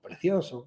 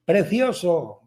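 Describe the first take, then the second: First: Softer repeat from the cave; imitated echo. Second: Drawn-out, mildly raised call; boy calling something nice into a cave; mock child's call. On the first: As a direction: let the word come back faintly. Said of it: "y el eco". (eco imitado, flojo) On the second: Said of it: "grita algo". (llamada fingida de niño, alargada)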